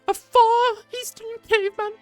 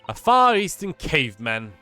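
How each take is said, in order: First: It is said in a put-on character voice. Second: It is said in the speaker's ordinary voice.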